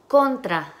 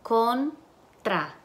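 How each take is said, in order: First: Said in the usual way. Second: Contra split as "con... tra" with a pause; syllable by syllable. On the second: Shown as a demonstration. Teacher asks for the syllables, syllable by syllable. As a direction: break contra into two separate syllables. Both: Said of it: "Y las sílabas".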